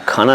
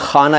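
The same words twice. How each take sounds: First: It begins with a plain aspirated k sound. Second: It begins with a throaty kh sound. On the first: The speaker calls it wrong. "खाना नहीं बोला" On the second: The speaker calls it right. "मैंने खाना ए दिल बोला"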